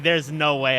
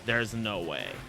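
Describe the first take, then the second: First: It is said with delight. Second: It is said with despair.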